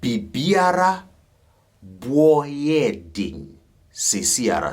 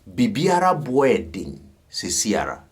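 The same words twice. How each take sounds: First: It is said slowly. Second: It is said at normal speed.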